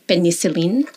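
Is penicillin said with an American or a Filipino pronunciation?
Filipino. It is said with a Filipino English pronunciation. "In the Philippines, we would say"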